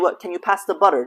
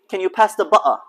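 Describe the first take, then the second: First: It is said in an Eastern accent. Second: It is said in a British accent.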